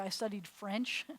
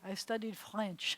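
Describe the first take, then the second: First: The r is an American r. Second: The r is made at the back of the throat. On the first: The speaker calls it wrong. "you wouldn't say" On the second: The speaker calls it right. "you would have a r back there instead of a r"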